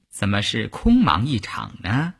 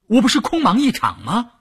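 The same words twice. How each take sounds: First: Composed, unhurried counter-question; cool rebuttal. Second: High-pitched, dismayed “空忙一场”; startled protest. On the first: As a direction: answer the panic coolly, at normal pitch. Cool schemer rebuts the startled protest. (冷静从容地反问) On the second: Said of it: "吓了一跳". (高声惊慌地抱怨) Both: A narrator's reading.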